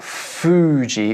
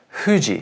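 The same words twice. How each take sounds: First: It starts with a clear English f sound. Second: It starts with a soft sound between h and f. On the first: The speaker calls it wrong. "is not Fuji" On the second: The speaker calls it right. "it's closer to Fuji"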